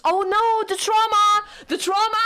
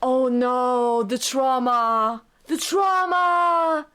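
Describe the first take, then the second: First: High, loud fan panic; alarmed outcry. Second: Very slow, anguished lament; drawn-out wail. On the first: Streamer exclaims over kiss scene. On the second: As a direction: wail it out, stretching every word. Repeats exclamation as slow wail. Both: Real, not acted.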